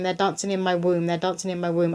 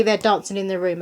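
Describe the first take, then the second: First: "womb" said with a clear w, not "room"; corrected womb. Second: "room" said with a plain r, where womb was meant; misspoken room. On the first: Reader correcting her slip to womb. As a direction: say "womb" carefully with a w. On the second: Reader slipping on the word meant for womb, saying "room". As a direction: slip and say "room" with an r sound. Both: Real, not acted. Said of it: "I said room".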